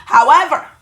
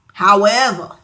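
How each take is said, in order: First: However said high and loud; emphatic however. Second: However said low with a falling tune. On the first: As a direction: throw out However with a big lift. Repeated word, first take raised. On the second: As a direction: drop however down, settled. Repeated word, second take lower. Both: Acted.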